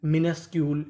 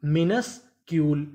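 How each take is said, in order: First: Said in the usual way. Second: मिनस्क्यूल slowly, as minus ... Kiul; slow two-part reading of मिनस्क्यूल; broken into parts. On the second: Shown as a demonstration. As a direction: pause inside मिनस्क्यूल after minus. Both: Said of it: "टुकड़ों में तोड़ तोड़ के पढ़ें".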